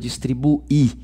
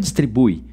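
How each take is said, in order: First: The final i is its own stressed syllable. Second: The final u and i blend into one syllable. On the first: The speaker calls it right. "continua distribuir. E aí vira hiato, onde o i é tônico" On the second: The speaker calls it wrong. "o correto não é distribui"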